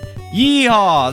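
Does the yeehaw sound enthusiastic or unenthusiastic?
enthusiastic. It is shouted with lively enthusiasm.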